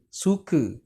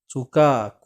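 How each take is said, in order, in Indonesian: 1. Suku kata terakhir berakhir dengan vokal 'e' lemah. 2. Suku kata terakhir berakhir dengan 'a' penuh dan terbuka. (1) "Berbanding ke, suka. Suka tak perlu buka mulut" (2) "kuat, ka, kena buka mulut"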